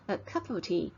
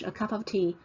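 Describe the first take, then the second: First: It is said in a British accent. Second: It is said in an American accent.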